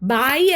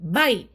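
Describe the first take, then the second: First: The vowel is drawn out long. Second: The vowel is short and clipped. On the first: The speaker calls it wrong. "ബായ് അല്ല കേട്ടോ" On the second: The speaker calls it right. "ഇത് ബൈ"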